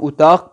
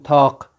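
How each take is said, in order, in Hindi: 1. अंतिम व्यंजन स्पष्ट q की आवाज़ है। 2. अंतिम व्यंजन में एक असामान्य गले वाली आवाज़ है। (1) "हम उताक पढ़ेंगे काफ के साथ" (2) "ये लोग काफ के साथ उताक इस तरह से पढ़ते"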